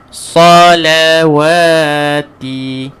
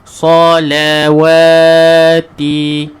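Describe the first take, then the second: The two takes are said the same way.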